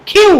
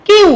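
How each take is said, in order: First: "কিউ" opened with a puffed kh; correct aspirated Q. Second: "কিউ" with unaspirated k; no puff of air on "কিউ"; learners' usual Q. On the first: Teacher correcting the letter Q, aspirated. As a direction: breathe out on the k of "কিউ". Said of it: "শুদ্ধ উচ্চারণ হবে". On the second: Teacher showing how we read Q before, unaspirated. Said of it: "যেটাকে আমরা পড়ে আসছি কি?". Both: Shown as a demonstration.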